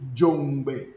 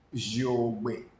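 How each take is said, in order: First: The word is said with a nasal before gbe. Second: The word is said without a nasal before gbe. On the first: This is the altered local form of the word. The speaker calls it wrong. "Our people call it Jongbe" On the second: This is the original form of the word. The speaker calls it right. "the real pronunciation is Jogbe"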